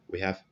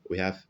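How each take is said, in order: Both takes have the same delivery.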